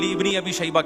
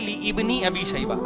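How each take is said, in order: First: The vowel is dropped, joining li and bni. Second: The vowel of ibni is pronounced as separate syllable. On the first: The speaker calls it right. "लिब्नी अबी। ये अलिफ साइलेंट है" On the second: The speaker calls it wrong. "अबे भाई इब्नी अबी शैबा नहीं है"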